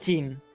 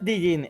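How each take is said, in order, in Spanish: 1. La palabra empieza sin ningún sonido D. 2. La palabra empieza con un sonido D pronunciado. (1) "es solo Jin" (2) "no es Dijin"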